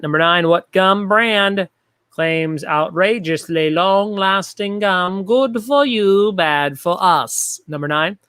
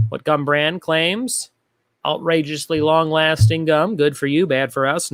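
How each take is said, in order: First: Big, slow, drawn-out announcer delivery; exaggerated host voice. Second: Said in the usual way. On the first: Shown as a demonstration. Trivia host reading the gum question to players, exaggerated host voice. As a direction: stretch out every word like an over-the-top host. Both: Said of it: "talking like this".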